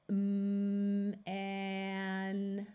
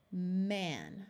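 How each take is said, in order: First: Each sound stretched long; held sounds slowly. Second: Quick blended word; said fast. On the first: Teacher models slow blending for beginner readers. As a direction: hold every sound. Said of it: "Hold all the sounds, do it slowly". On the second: Teacher blends the word quickly after holding it. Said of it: "then say it fast". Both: Shown as a demonstration.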